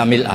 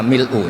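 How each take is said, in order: First: The word ends with an 'a' vowel. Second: The word ends with an 'u' vowel. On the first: It is read as in some chains of transmission. "di beberapa sanad dibaca mil'a" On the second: It is read in the nominative case. "baca pakai rofaknya mil'u"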